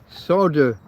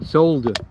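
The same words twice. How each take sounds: First: The word is said the American way. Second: The word is said the non-American way.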